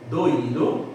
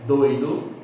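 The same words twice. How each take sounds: First: Doído said do-Í-do, three syllables; doído, stressed í. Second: Doido said DOI-do, two syllables; doido, gliding oi. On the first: (doído, acento no Í) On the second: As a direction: doido with the oi as a diphthong. (doido, ditongo oi) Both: Shown as a demonstration. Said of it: "a diferença da pronúncia".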